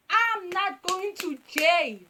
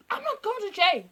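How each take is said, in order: First: Slow, high, loud refusal; deliberate, drawn-out refusal with raised pitch; emphatic protest. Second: High, loud protest at normal speed; loud, high-pitched refusal; panicked protest. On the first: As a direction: stretch out every word to insist. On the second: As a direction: blurt the refusal in one go, pitched up. Protesting the police threat. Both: Acted.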